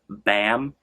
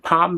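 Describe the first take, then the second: First: The name is said with an English-like pronunciation. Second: The name is said with a Korean-like pronunciation. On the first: "Some people might say like Bam, if you know you don't speak Korean" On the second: "Pom means night in Korean"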